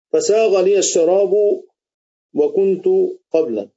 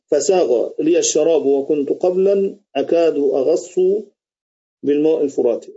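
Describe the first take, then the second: First: فساغ لي الشراب drawn out slowly, then a pause before وكنت and قبلًا; slow verse with pauses. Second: Said in the usual way. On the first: Shown as a demonstration. (إلقاء بطيء مع وقفات وقبلًا منخفضة) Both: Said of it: "قال الشاعر".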